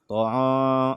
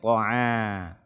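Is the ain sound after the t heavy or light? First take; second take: heavy; light. First: The ain sound is thickened and heavy. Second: The ain sound is light, not thickened. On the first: The speaker calls it wrong. "menebalkan huruf ain ... tidak" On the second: The speaker calls it right. "Jangan sampai ain ini terpengaruh oleh huruf to tersebut"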